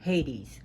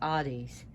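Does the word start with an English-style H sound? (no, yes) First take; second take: yes; no. First: It starts with an English-style H sound. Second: It starts without an English-style H sound.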